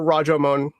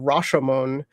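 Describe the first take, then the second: First: The name uses an older period pronunciation. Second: The name uses its familiar modern pronunciation. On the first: "is closer to the actual uh, pronunciation of the time" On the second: "also known as the Rashomon"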